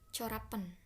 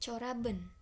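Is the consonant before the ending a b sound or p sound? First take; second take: p sound; b sound. First: A p sound comes before the ending. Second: A b sound comes before the ending. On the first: The speaker calls it wrong. "saya lebih butuh effort untuk bilang corapen" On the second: The speaker calls it right. "Maka corab yang benar coraben"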